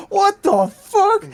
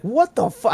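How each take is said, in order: First: Very high, loud, drawn-out mock shriek; outraged yell. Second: High-pitched mock outrage; outraged disbelief. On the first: Pranked worker yelling over the drive-thru mic, drawn-out outraged shriek. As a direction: stretch it into a piercing, incredulous yell. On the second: Pranked worker reacting over the mic, high outraged disbelief. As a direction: squawk it in shock, voice way up. Retold outraged drive-thru cousin.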